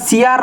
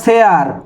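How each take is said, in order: First: The word begins with a plain s sound. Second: The word begins with a sh sound. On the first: The speaker calls it wrong. "আরে কাকা ওটা সিয়ার নয়" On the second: The speaker calls it right. "ওটা শেয়ার। ভালো করে উচ্চারণ করো কাকা"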